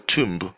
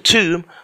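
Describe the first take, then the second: First: The final B is pronounced. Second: The final B is silent. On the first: The speaker calls it wrong. "or a tomb" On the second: The speaker calls it right. "the B in the tomb is very silent. You don't pronounce it"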